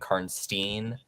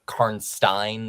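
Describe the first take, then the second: First: The name is not said like Frankenstein's ending. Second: The name is said like the end of Frankenstein.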